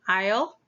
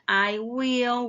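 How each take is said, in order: First: The words are contracted into one syllable. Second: Both words are said fully and separately. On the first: "we have I'll" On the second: "instead of saying I will"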